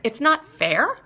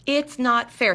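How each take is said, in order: First: "It's not fair?" with a rising, doubting tune; incredulous question. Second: "It's not fair." with a falling, matter-of-fact tune; flat statement. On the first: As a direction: echo it back as a skeptical question. Questioning the addiction's claim. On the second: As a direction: state it as the bare claim. Restating the claim flatly. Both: Retold or imitated.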